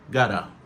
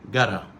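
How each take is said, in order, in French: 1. Les mots se contractent en un seul mot court et réduit. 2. Les mots se contractent en un seul mot court et réduit.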